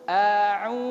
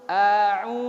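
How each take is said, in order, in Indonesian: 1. Bibir maju penuh ke depan dan membulat pada u. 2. Bibir maju penuh ke depan dan membulat pada u.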